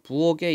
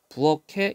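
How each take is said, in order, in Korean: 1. 가운데 자음은 평음 g 소리입니다. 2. 가운데 자음은 격음 k 소리입니다. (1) "많은 친구들이 부엌에 있어 개로 발음하는데 이거 틀린 발음이죠" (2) "부엌에 이렇게 발음해야 돼요"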